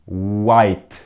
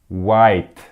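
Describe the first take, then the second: No difference in how they are said.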